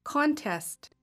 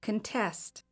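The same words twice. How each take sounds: First: "Contest" as a noun, CON-test; noun stress on first syllable. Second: "Contest" as a verb, con-TEST; verb stress on second syllable. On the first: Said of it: "I will say the noun first". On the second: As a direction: stress the last syllable of "Contest", reduced "kun". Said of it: "and the verb second". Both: Shown as a demonstration.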